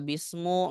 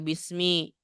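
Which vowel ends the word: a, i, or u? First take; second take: u; i. First: The word ends with a u vowel. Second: The word ends with an i vowel. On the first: The speaker calls it wrong. "Nggak boleh dibaca bismu" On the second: The speaker calls it right. "makanya harus dibaca bismi"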